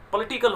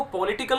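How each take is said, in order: First: "पॉलिटिकल" as puh-LI-ti-kul; weak schwa at the start of "पॉलिटिकल"; correct pronunciation. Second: "पॉलिटिकल" with a full o in the first syllable; mispronounced example. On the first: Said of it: "पॉलिटिकल होता है". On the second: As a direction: say "पॉलिटिकल" as po-litical, clear o. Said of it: "इसको पॉलिटिकल नहीं बोलते". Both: Shown as a demonstration.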